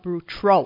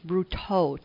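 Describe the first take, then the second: First: The name is said with an extra R sound. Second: The name is said without an extra R sound. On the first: The speaker calls it wrong. "not Bruteau. I tended to put an R there" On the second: The speaker calls it right. "It's Bruteau, T-E-A-U"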